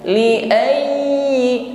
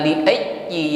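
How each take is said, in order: First: The ya sound keeps flowing while stressed. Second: The ya sound is cut off abruptly. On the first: The speaker calls it right. "tetapi li ayyi ayyi. ... ini tetap bunyi" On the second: The speaker calls it wrong.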